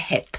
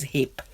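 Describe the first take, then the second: First: The vowel is the 'e' of 'hep'. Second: The vowel is the short 'i' of 'hip'. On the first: This is the form used in India. "in India we say hep" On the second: This is the standard form. "the correct word probably is hip"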